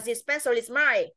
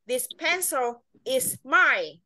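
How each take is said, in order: First: The end of pencil runs into is. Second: Pencil and is are kept apart. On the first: "Còn đấy là cách nối âm là list đúng không?" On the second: "Còn nếu như tách âm ra thì nó là gì?"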